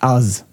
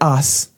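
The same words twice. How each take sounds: First: The word ends with a z sound. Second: The word ends with an s sound. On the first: "like us, UZ" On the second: "I pronounce the word us, US"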